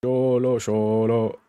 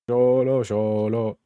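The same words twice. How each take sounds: The two takes are said the same way.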